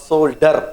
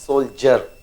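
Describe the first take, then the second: First: The middle consonant is a plain 'd' sound. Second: The middle consonant is a 'j' sound. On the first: The speaker calls it wrong. "It's not soldier" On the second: The speaker calls it right. "the basic phone of D has changed to J"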